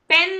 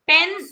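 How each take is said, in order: First: पेन with a plain p and no puff of air; unaspirated p. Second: पेन with a breathy aspirated p, like phen. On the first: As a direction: say पेन flat, without the h. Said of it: "पेन नहीं बोलते हैं". (बिना हवा के सादा पेन) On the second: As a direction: let a light h follow the p in पेन. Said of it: "प के साथ हल्का सा एच का साउंड आएगा". (पेन में प के साथ हल्का एच) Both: Shown as a demonstration.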